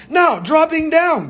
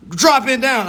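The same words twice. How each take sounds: First: Higher, slow lecturing professor. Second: Said in the usual way. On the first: Shown as a demonstration. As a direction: announce it like a professor. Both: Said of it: "I gotta put my, my professor voice on".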